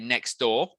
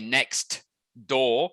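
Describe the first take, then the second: First: The t at the end of next is dropped. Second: The t at the end of next is pronounced. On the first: The speaker calls it right. "we say next door. The T is dropped" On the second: The speaker calls it wrong. "We don't say"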